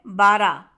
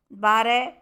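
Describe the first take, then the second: First: बारह said as bara, no final h; h dropped. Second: Said in the usual way. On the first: Shown as a demonstration. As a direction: end बारह on a plain a, bara. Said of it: "हा का लोप". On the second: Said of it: "हा का उच्चारण".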